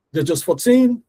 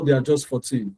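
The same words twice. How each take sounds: First: Put-on "fourteen" higher, with TEEN lifted; musical stress. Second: "fourteen" evenly weighted and falling; no lift on TEEN, both syllables of "fourteen" equal; equal stress. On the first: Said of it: "That is the music in the language". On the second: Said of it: "they are equal in sound". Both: Shown as a demonstration.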